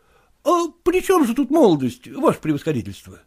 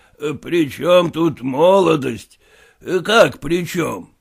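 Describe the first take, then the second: First: Выше, молодой проситель недоумевает; недоумённо переспрашивает; голос Куцина. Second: Медленно, ниже, с усмешкой; генерал насмешливо передразнивает вопрос; голос генерала. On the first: Kutsin asks, general repeats. (Куцин недоумённо спрашивает генерала, голос выше) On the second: General repeats the question. (генерал медленно и насмешливо переспрашивает Куцина) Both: Acted.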